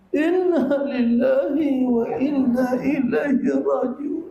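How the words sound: It is said in a wailing, mournful way.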